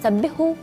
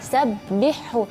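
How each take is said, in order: First: Only one h sound is heard clearly. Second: A soft h is heard, then a heavy h. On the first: The speaker calls it wrong. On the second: The speaker calls it right. "harus suara H lembutnya itu jelas, sabbih, baru kita masuk ke huruf H besar"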